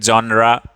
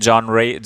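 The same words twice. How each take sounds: First: "genre" with final ah vowel; second variant of "genre", said John-raa. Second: "genre" with final ay vowel; first variant of "genre", said John-ray. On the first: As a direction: end "genre" on an open raa. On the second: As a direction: end "genre" on a ray sound. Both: Shown as a demonstration. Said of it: "कुछ लोग genre भी बोलते हैं".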